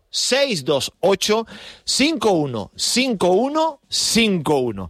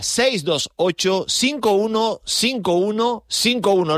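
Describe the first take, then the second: First: The number is said slowly. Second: The number is said at normal speed.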